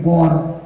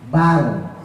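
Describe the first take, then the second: First: The vowel is rounded toward o. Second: The vowel is an open, clear a. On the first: The speaker calls it wrong. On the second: The speaker calls it right.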